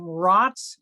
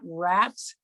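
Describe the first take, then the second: First: The vowel sounds like the one in 'cot'. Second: The vowel sounds like the one in 'cat'. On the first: The speaker calls it right. "I believe you pronounce his name Rotz" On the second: The speaker calls it wrong. "not Rats"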